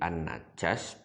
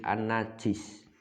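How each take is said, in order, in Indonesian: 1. Vokal setelah j adalah 'a'. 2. Vokal setelah j adalah 'i'. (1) "Ini boleh an-najas" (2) "boleh an-najis"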